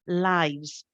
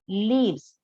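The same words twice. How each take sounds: First: The vowel is long, as in 'five'. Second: The vowel is short, as in 'give'. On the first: It is the plural of life. "If you are reading as a plural of the noun life, in that case, yes, you say lives" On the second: It is the verb to live. "this is the verb live, and when you read it in third person, you simply say lives"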